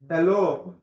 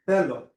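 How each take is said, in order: First: The stress is not on the epsilon syllable. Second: The stress is on the epsilon syllable. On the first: The speaker calls it wrong. "I don't say hello" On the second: The speaker calls it right. "I say hello, right? The, the stress is on the epsilon"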